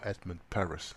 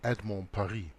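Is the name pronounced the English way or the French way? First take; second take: English; French. First: The name is pronounced the English way. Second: The name is pronounced the French way. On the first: "as he would pronounce it in English" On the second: "French author"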